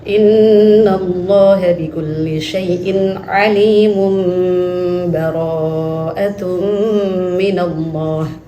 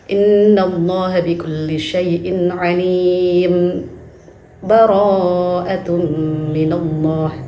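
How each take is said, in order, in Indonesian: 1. Kedua frasa menyambung tanpa jeda. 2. Jeda singkat memisahkan kedua frasa. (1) "Kemudian wasal" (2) "yang kedua sakat"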